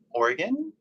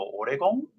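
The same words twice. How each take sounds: First: "Oregon" as OR-gun, rising high; American-style "Oregon", squeezed to OR-gun; American pronunciation of Oregon. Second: "Oregon" as oh-dee-gom, rounded last vowel; Japanese pronunciation of Oregon. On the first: Shown as a demonstration. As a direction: say "Oregon" with a reduced last vowel, questioning. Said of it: "that's how we say it". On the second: Retold or imitated. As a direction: say "Oregon" Japanese-style with a tapped r and "-gom" ending. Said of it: "it sounds different enough".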